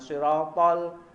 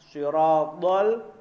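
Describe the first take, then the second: First: The first s is light and plain. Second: The first s is heavy and emphatic. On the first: The speaker calls it wrong. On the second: The speaker calls it right.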